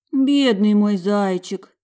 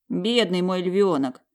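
First: Slow, louder tender pity. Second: Slow, tender sympathy. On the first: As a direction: lament over the poor child. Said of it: "качала головой Маржа". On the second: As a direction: click the tongue in pity. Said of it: "подсокал он языком". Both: A narrator's reading.

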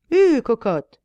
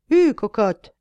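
First: Loud yell at the horse; shouting coachman. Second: Loud yell urging the horse on; shouting coachman. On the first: Coachman yells loudly at his horse again. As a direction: bellow it like a rough cabby. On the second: Coachman yells loudly at his horse to start. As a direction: bellow at the horse like a rough coachman. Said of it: "hurle le cocher". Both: Acted.

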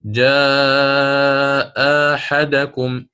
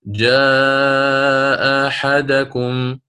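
First: Long chanted جاء, then أحدكم opening on a short plain alif; ibdal with qasr. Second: Slow, sustained recitation of جاء أحدكم with a softened hamza; tasheel recitation. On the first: Teacher gives the example of substitution, ibdal with short vowel. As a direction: recite جاء أحدكم slowly, second hamza replaced by a short aa. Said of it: "فأبدلن مع القصر". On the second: Teacher gives another example of easing the hamza, tasheel recitation. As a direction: chant جاء very long, second hamza of أحدكم eased toward alif. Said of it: "هذا التسهيل". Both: Shown as a demonstration.

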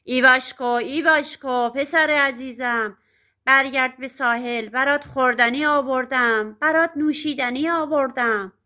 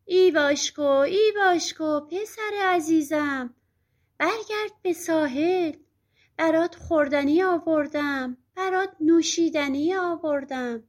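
First: Loud, rough witch calling out; harsh witch call, pushed and brisk; ugly, coarse witch yell. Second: Witch passing as a gentle, singsong mother; sweet motherly imitation. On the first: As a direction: bellow the false endearments like a crude witch. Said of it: "با صدای زشت و زمختش فریاد کشید". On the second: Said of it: "صداش درست شبیه صدای مادر ایواشکوه". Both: A narrator's reading.

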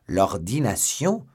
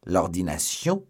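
First: Louder, slower "L'ordination?" rising in disbelief; loud drawn-out "L'ordination?" in disbelief; astonished repeat. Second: Slow incredulous question; disbelieving echo; stunned repeat; astonished cry. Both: Acted. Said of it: "s'écria D'Artagnan".

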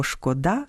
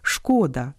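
First: ШкодА́, final syllable stressed; stress on last syllable. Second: ШКО́да, opening syllable stressed; stress on first syllable. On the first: (наголос на останньому складі: шкода́) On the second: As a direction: say шкода stressing ШКО. (наголос на першому складі: шко́да) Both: Shown as a demonstration. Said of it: "яке має ще один наголос".

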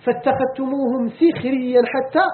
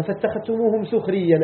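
First: سخريا with i after the sin, sixriyyan, slow; kasra reading. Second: سخريا with u after the sin, suxriyyan; damma reading. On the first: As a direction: read سخريا as sixriyyan, drawn out. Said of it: "وعلى قراءة الكسر". (نطق سخريا بكسر السين ببطء) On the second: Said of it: "على قراءتنا بالضم". (نطق سخريا بضم السين) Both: Shown as a demonstration.

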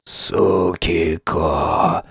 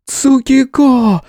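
First: Very slow, low, weak rasp; wheezing croak. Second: High, long calling cry; woman's cry. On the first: Wounded friend calls from the ground, croaking. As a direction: wheeze the name out softly. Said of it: "внезапно прохрипел лежащий Ван". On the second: Kitsune calls the hero for help, crying out. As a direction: call the name out high, drawn out. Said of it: "Крик Рангику заставил вздрогнуть". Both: A narrator's reading.

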